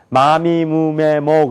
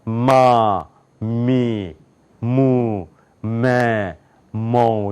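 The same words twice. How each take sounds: First: 마미무메모 run together, simple Korean M; Korean M sound. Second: 마, 미, 무, 메, 모 with hummed nasal onset; nasal English M. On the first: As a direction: say 마미무메모 straight through without humming the M. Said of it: "우린 그냥 마미무메모 그러잖아요". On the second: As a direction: press lips and hum into each of 마, 미, 무, 메, 모. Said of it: "콧소리가 나는 거예요". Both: Shown as a demonstration.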